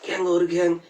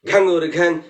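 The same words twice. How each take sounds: First: It is said quietly and softly. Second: It is said loudly, in a raised voice. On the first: "প্রথমে বলুন আস্তে বলতে" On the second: "এবার উচ্চস্বরে ডাকতে বলুন"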